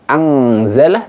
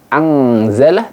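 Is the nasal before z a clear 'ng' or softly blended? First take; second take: clear ng; clear ng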